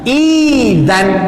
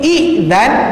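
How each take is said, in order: First: The first vowel is held long without a break. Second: The first vowel is cut by a glottal stop. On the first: "panjangnya berapa harkat? Dua harkat" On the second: "Asalnya macam ni"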